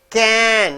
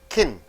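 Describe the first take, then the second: First: The word is full with a clear vowel. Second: The word is reduced with a weak vowel. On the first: "Can in stressed" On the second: "kin in unstressed"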